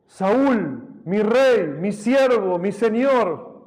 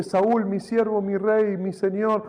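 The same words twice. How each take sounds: First: Loud, higher, earnest call to the king. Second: Said in the usual way. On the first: Acted. David calling to King Saul from afar, loud and reverent. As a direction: call out his name and titles with reverence.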